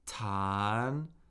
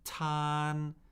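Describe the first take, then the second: First: The pitch rises from middle to high. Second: The pitch stays high and level.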